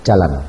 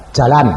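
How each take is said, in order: First: Said in the usual way. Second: Firm command. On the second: Retold or imitated. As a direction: insist on it, punchy and loud. Command repeated after her objection. (perintah tegas dengan suara keras)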